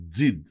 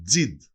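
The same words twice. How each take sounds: The two takes are said the same way.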